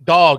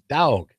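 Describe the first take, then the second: First: It is said in a cleaned-up, neutral accent. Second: It is said in a Southern accent.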